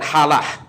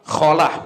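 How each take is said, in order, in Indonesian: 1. Diawali dengan bunyi h biasa yang lembut. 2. Diawali dengan bunyi kh yang serak. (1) "bukan halah" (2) "pakainya kho"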